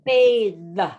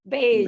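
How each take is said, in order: First: The word is said slowly and drawn out. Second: The word is said quickly, at natural speed. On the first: "I'm trying to say it slowly" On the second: "it actually sounds like bathe"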